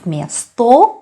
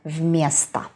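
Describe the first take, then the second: First: The first vowel sounds like a full o. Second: The first vowel sounds reduced, like a. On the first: The speaker calls it wrong. "We pronounce not" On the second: The speaker calls it right. "so о is not stressed. That's why it is а"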